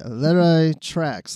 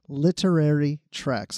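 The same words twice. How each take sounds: First: The syllables run together and are slurred. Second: Each syllable is pronounced carefully and clearly. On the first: The speaker calls it wrong. "I always say Literary Treks" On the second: The speaker calls it right. "I need to enunciate that"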